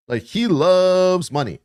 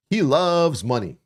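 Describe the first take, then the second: First: He loves money said higher, slowly, leaning on each word; emphatic repeat. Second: Said in the usual way. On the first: Real, not acted. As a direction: drive the point home, slow and emphatic.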